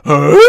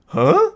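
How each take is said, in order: First: A loud, lightly voiced sitcom-dad grunt of confusion; Tim the Toolman Taylor. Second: Sudden cartoonish huh, much higher; cartoon character huh. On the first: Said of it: "like Tim the Toolman Taylor". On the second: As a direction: squeak it like a baffled cartoon. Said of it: "Like a cartoon character".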